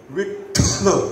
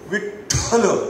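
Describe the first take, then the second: First: The ठ sound is said with a forceful breath. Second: The ठ sound is said with a forceful breath.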